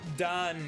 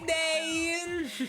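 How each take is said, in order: First: The vowel is an open Israeli 'a'. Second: The vowel is stretched with a 'y' glide. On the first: "the Israeli pronunciation" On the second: "it'll come out like really forced"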